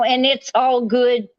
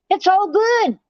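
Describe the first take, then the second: First: Said in the usual way. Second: 'It's all good' jumped much higher, mocking; sarcastic high repeat. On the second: Real, not acted.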